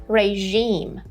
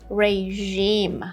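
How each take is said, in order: Both takes have the same delivery.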